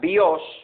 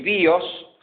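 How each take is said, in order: First: The stress is on the second syllable. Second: The stress is on the first syllable. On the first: It means the bow of an arrow. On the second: It means life.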